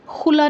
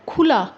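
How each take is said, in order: First: खुला with a rough throat kh; the wrong way, खुला with a throaty x. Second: खुला with aspirated kh; खुला, clear aspirated kh; correct kh. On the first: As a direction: say खुला as xula. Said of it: "खुला नहीं कर सकते हम". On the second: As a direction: say खुला with a breathy kh. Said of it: "next क्या है". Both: Shown as a demonstration.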